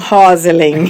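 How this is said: The name is said half in Portuguese style. "eles fazem meio português"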